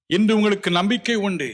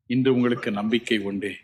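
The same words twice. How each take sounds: First: இன்று hit higher and louder, whole line raised; emphatic repeat. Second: Said in the usual way. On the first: Shown as a demonstration. Preacher assuring the congregation, louder emphatic repeat. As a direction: proclaim it a second time with force.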